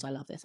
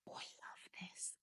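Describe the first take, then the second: First: Said in the usual way. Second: Breathless whisper of delight. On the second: Real, not acted. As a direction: whisper it like a secret joy. Smelling a fragrance she loves.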